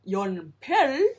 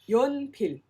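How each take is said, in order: First: The final L is strongly over-rolled. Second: The final L is light, barely rolled. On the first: The speaker calls it wrong. "don't over roll it. Not 연필" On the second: The speaker calls it right. "roll it just enough"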